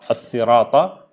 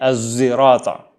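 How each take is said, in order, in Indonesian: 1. Diawali dengan bunyi s yang tebal dan berat. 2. Diawali dengan bunyi z dan bibir membulat. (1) "jumhur qurra membacanya dengan sad" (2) "Dia membacanya dengan zai"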